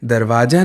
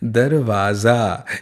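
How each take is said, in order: First: The middle consonant is a plain 'j' sound. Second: The middle consonant is a 'z' sound. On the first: The speaker calls it wrong. "नहीं नहीं, दरवाजा नहीं" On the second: The speaker calls it right. "ये जो ज में नीचे बिंदी है ना, इसे नुक्ता कहते हैं"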